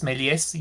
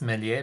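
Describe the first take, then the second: First: The final S of the name is sounded. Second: The final S of the name is silent. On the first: The speaker calls it right. "the S is actually uh, pronounced" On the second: The speaker calls it wrong. "I also mispronounced it for the longest time in development as Melie"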